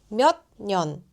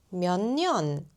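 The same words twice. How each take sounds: First: The final consonant stays a hard stop. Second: The final consonant becomes a nasal sound. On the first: The speaker calls it wrong. "이거 발음하기 힘들잖아요" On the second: The speaker calls it right. "이게 훨씬 편하죠"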